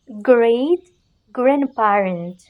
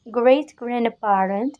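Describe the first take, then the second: First: "great" lifted, pause, then "grandparent" falling; words set apart. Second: Said in the usual way. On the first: Shown as a demonstration. Teacher modelling great grandparent for learners to repeat, words set apart. Teacher splits phrase for repetition.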